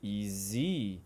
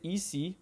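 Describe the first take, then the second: First: The middle consonant is a voiced z sound. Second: The middle consonant is a voiceless s sound. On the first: The speaker calls it right. "we say E Z" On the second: The speaker calls it wrong. "we don't say E C"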